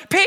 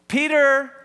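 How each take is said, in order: First: Long-drawn Southern holler of the name; huge Southern-accented yell, last syllable stretched; barbaric Southern yelp. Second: High, loud call of the name; raised-voice summons; mom calling louder. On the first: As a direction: imitate a Southern mom yelping for her child. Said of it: "this barbaric yelp, but with her southern accent". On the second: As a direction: imitate a mother calling out for her missing child. Mom's second, sharper call. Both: Retold or imitated.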